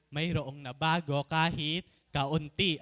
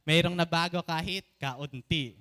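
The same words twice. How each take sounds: First: Said in the usual way. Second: "Mayroong" punched loud at the start with "nabago kahit kaunti" carried up strong; the bolder take that shows the congregation how big to say it; louder, bigger. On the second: Shown as a demonstration. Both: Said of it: "ganyan nakalaki yung kaunti natin na, hindi na ganun ha".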